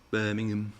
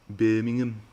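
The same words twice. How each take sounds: First: Lightly attempted Brummie accent; bad Birmingham accent. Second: Louder, hammed-up Brummie accent; exaggerated Birmingham accent after a laugh; stronger Birmingham accent. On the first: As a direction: try a badly faked Birmingham accent. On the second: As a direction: have another go at Brummie, pushing it harder. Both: Shown as a demonstration. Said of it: "That was a bad Birmingham accent".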